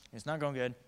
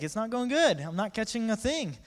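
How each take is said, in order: First: Said in the usual way. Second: High, loud exasperated holler; hollered complaint. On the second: Acted. Fisherman answering onlookers with empty net, hollered. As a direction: holler the bad news back.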